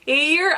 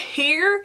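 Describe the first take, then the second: First: The word starts without any H sound. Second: The word starts with a spoken H sound.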